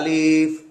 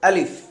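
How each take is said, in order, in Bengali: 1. শব্দটি ধীরে টেনে বলা হয়। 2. শব্দটি খুব দ্রুত বলা হয়। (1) "আলিফ এরকম টানো হবে না। আমরা সব বলি যে আলিফ এভাবে বলি" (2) "আলিফ উচ্চারণটা খুব দ্রুত হবে"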